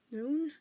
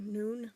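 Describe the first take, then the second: First: High, startled rising echo; surprised echo. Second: Said in the usual way. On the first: Acted. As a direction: echo it back in disbelief. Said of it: "his dad echoed". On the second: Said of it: "Stephen, unsure".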